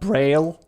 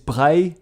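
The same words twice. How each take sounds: First: Braille is pronounced the usual English way. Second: Braille is pronounced the French way. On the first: The speaker calls it wrong. "It is not Braille" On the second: The speaker calls it right. "the inventor of Braille is Louis Braille, which was French"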